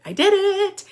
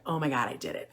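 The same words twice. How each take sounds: First: Much higher, louder burst of triumph; thrilled parent cheering; excited squeal. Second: Softer, lower, hushed disbelief; quiet amazed parent; stunned murmur. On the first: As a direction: squeal it in delight. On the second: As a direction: murmur it as if you can't believe it. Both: Retold or imitated. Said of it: "you're gonna be like".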